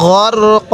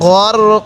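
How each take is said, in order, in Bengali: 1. শব্দটি একটি দীর্ঘ a স্বরধ্বনি দিয়ে শেষ হয়। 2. শব্দটি একটি দীর্ঘ a স্বরধ্বনি দিয়ে শেষ হয়।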